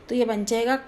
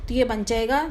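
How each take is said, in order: Both takes have the same delivery.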